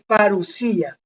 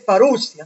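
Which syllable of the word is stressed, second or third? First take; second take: third; second. First: The stress falls on the third syllable. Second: The stress falls on the second syllable. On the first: The speaker calls it right. "es parusía. Así se pronuncia" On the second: The speaker calls it wrong. "La gente dice parusia, no"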